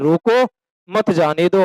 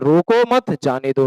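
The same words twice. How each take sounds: First: There is a pause right after 'roko'. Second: There is a pause right after 'mat'. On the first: Stop them; do not let them go. "यहाँ लगा दो comma" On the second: Do not stop them; let them go. "रोकना नहीं है"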